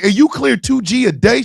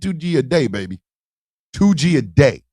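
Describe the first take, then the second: First: Retold disbelief, rising at the end; incredulous question. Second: Low, falling, self-assured reply; cool confirmation. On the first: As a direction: ask it as if checking the unbelievable. He asks her in amazement. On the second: Retold or imitated. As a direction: confirm it coolly, dropping in pitch. Woman confirms it coolly.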